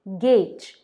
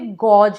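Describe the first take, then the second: First: The vowel sounds like 'ay'. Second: The vowel sounds like 'aw'. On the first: The speaker calls it right. "कहते हैं गेज" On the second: The speaker calls it wrong. "Spelling के हिसाब से गॉज है, but कहते नहीं हैं"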